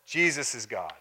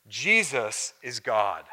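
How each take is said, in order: First: Said in the usual way. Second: "Jesus is God." drawn out slowly, landing hard on "Jesus"; slow weighty emphasis. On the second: Shown as a demonstration. Preacher driving home the claim to his congregation, slow and weighty. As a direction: let each word of "Jesus is God." fall with slow weight.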